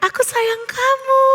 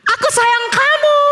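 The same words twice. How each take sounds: First: High, softened repeat of a call; echo. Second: High, loving call. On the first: Valley echo answers Theo's loving call, echoing. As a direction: send it back like an echo. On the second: Theo calls to the echo, loving shout. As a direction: call affection across a valley. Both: A narrator's reading.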